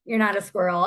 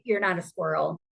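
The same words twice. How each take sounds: First: "not" hit louder, held firm; stress on not. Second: Said in the usual way. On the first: Shown as a demonstration. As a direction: lean hard on "not" in "You're not a squirrel".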